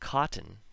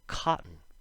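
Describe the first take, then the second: First: The T sound is clearly pronounced. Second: The T sound is dropped. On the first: "the T's when we speak slow" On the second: "at a normal speed, or fast, the sounds change"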